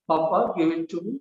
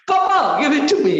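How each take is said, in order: First: It is said without enthusiasm, flatly. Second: It is said with excited enthusiasm.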